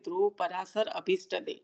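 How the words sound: Each word is separated clearly at its boundaries. The separate names are understood. The speaker calls it right.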